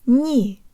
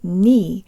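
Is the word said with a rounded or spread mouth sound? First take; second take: rounded; spread. First: It is said with jaw forward and rounded lips. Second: It is said without jaw forward or rounded lips. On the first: The speaker calls it right. "Jaw slightly forward, tip of the tongue behind the bottom teeth, lips rounded and protruded" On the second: The speaker calls it wrong. "you need to work more on shifting the position of your jaw, tongue, and lips"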